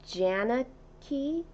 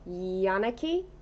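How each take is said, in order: First: The name begins with a J sound. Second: The name begins with a Y sound. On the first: "Do I say it with a J?" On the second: "Is it a Y sound?"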